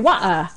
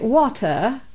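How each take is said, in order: First: It is said in a Cockney accent. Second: It is said in an upper-class British accent.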